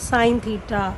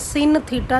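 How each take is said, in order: First: The first word is said with a long 'ai'. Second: The first word is said with a short 'i'. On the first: The speaker calls it right. "This is साइन theta" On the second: The speaker calls it wrong. "Please इसको किसी ने सिन theta नहीं बोलना"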